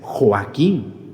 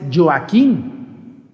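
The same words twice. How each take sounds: First: The name begins with a throaty h sound. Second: The name begins with a soft y-like sound. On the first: The speaker calls it right. "es Joaquín" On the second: The speaker calls it wrong. "Joaquín no es Joaquín"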